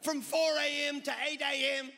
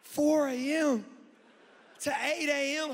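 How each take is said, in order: First: Loud, high Australian preacher impression; Christine Caine. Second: Mock-incredulous high holler; inward disbelief. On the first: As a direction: proclaim it like a piratical Australian preacher. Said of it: "she sounds like a pirate". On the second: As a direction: drag it out loud, aghast at the hour. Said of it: "But on the inside, I was like".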